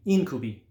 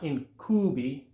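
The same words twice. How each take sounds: First: "incubi" stressed on the first syllable, IN-cu-bi; the right "incubi", IN-cu-bi, a little louder. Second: "incubi" stressed on the middle syllable, in-CU-bi; a mistaken "incubi" with the stress on -cu-; wrong stress. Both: Shown as a demonstration. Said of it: "not incubi".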